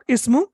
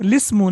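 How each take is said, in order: First: The word begins with a vowel sound. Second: The word begins with a linked l sound. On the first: The speaker calls it wrong. "not ismu" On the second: The speaker calls it right. "you are pronouncing it lismu"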